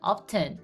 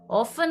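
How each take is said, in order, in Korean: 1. 그 단어에서 t 소리는 분명히 발음돼요. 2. 그 단어에서 t 소리는 묵음이에요. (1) "T로 할 때는 often. 이거는 영국식이에요" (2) "T 발음을 안 한 F 발음을 한 거예요. 그거는 미국식이고요"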